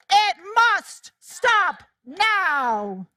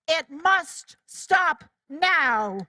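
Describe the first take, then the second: First: Slow chant, MUST punched hard; chanted, lead the crowd slowly, hitting must. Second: Slow, every word weighted; slow firm declaration. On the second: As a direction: lay each word down slowly and firmly. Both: Shown as a demonstration. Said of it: "Say it with me".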